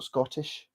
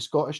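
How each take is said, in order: First: The middle T sound is clearly pronounced. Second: The middle T sound is dropped. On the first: "not Scottish" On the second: "We tend to miss out T's, so it'd be Scottish"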